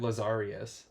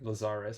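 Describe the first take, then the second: First: An extra 'ee' sound comes before the ending. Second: No extra sound comes before the ending. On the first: The speaker calls it wrong. "I always said it Lazarius" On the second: The speaker calls it right. "I think is how you say it"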